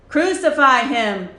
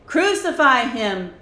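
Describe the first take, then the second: No difference in how they are said.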